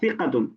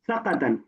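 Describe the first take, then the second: First: The first vowel is an 'i' sound. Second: The first vowel is not an 'i' sound. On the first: The speaker calls it right. "اللفظ الصحيح هو ثقة بكسر الثاء" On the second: The speaker calls it wrong. "مرة ذكرت آه، كلمة ثقة"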